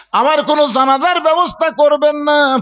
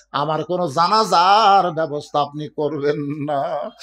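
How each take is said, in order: First: High, raised-voice plea; impassioned cry. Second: Said in the usual way. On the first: Acted. Fatema forbidding her funeral prayer, impassioned cry. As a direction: cry it out from the pulpit at a high pitch. Same request repeated at full force.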